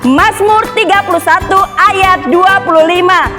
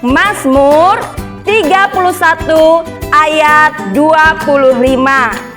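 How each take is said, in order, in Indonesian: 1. Dibacakan lebih cepat lagi, sangat cepat. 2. Dibacakan dengan kecepatan sedang, normal. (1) "Lebih cepat lagi bisa?" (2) "Sekali lagi ya"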